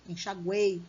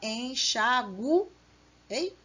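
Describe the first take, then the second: First: The final vowels are joined in one syllable. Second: The final vowels are split into separate syllables. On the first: The speaker calls it right. "Então, é um tritongo. Três vogais juntas na mesma sílaba" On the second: The speaker calls it wrong. "você não fala enxaguei"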